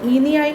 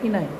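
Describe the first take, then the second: First: An extra vowel sound separates the two parts. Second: The two parts run together with no extra vowel. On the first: The speaker calls it wrong. "हम इसका इनियाइन नहीं करते" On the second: The speaker calls it right. "इनाइन करते हैं ना"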